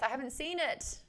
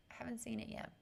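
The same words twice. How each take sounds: First: Said in the usual way. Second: Breathy whispered repeat, much softer. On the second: Real, not acted. Streamer answering chat about Wentworth, whispered. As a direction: drop to a hushed whisper, as if sharing a secret.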